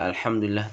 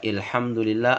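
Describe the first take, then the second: First: The first vowel sounds like 'a'. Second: The first vowel sounds like 'i'. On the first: The speaker calls it right. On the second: The speaker calls it wrong.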